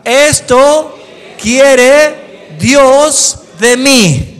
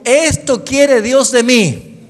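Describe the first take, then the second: First: "Esto" más agudo y muy fuerte, "quiere Dios de mí" muy lento; proclámalo fuerte y despacio; dicho fuerte. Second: Repetición con la congregación. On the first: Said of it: "dígalo fuerte". (el predicador lo grita para que lo repitan) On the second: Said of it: "Diga conmigo". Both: Shown as a demonstration.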